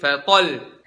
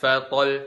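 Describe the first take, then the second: First: The voice rises with force on the doubled consonant. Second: The doubled consonant is said plainly, without extra force. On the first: The speaker calls it right. "tapi fatal" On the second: The speaker calls it wrong. "bukan fatal"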